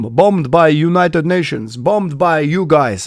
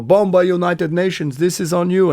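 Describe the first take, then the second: First: Slow, higher mock soldier in broken English; lightly voiced accusing soldier, drawn out; a hint of a stern Serbian soldier; quoting a soldier. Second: Higher mock soldier, broken English; lightly put-on accusing soldier voice; a touch of a blaming Serbian soldier; quoting a soldier. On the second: Soldiers blame the band again.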